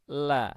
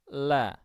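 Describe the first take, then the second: First: The L is thin, with a relaxed open throat. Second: The same.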